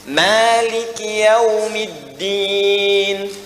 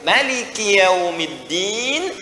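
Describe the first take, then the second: First: The vowel after the m is held long. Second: The vowel after the m is kept short. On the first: "Mimnya dua harakat dibaca panjang" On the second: "kalau ada orang yang bacanya pendek"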